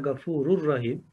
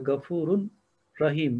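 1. n sesi, takip eden r sesine karışır. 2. Rahim'den önce net bir n sesi duyulur.

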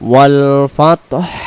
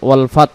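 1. শব্দটি স্পষ্ট, হাওয়াযুক্ত h দিয়ে শেষ হয়। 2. শব্দটি t দিয়ে শেষ হয়, কোনো h ধ্বনি নেই। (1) "মানে হাইর উচ্চারণ বেশি আসবে ওয়াল ফাতহ" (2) "ফাত ফাত বললে এই তা অক্ষর পর্যন্ত সীমাবদ্ধ থেকে যাচ্ছে"

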